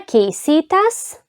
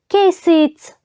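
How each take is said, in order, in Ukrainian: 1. Голосний перед закінченням зберігається. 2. Голосний перед закінченням випадає. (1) "по правилах ми маємо «ое» залишити" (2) "в розмовній мові дуже часто ми чуємо"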